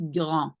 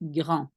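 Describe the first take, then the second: First: The R is a soft, light throat sound. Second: The R is a soft, light throat sound.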